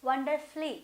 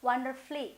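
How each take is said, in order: No difference in how they are said.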